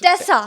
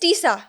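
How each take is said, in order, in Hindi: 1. पहला स्वर छोटी 'e' ध्वनि है। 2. पहला स्वर लंबी 'ee' ध्वनि है। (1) "इट्स टेसा।" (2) "पूरी दुनिया के सामने मेरा नाम गलत बोला यार।"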